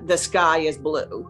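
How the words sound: It is a flat, unconnected statement.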